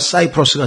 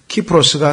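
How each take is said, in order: First: The name begins with an s sound. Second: The name begins with a k sound. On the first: "영어로 오면" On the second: "라틴어로는 K로 발음이 됩니다"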